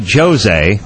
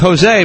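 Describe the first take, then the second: First: The name begins with a J sound. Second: The name begins with an H sound. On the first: The speaker calls it wrong. "I don't say Jose" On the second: The speaker calls it right. "I say Jose because I figured out that the J is not pronounced that way south of the border"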